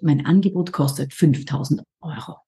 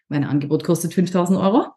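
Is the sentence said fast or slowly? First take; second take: slowly; fast. First: The sentence is said at a slower pace. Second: The sentence is said at a faster pace.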